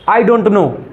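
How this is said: It is said in an Indian English accent. "अब Indian accent"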